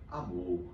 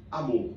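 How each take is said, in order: First: "amor" with the MOR drawn out, softer; stretched syllable. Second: Said in the usual way. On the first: Shown as a demonstration. Teacher showing students how words stretch, "amor" elongated on MOR. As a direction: pull out the last syllable of "amor", gently. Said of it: "Eu puxei um pouquinho no M O R". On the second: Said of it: "eu posso dizer simplesmente amor".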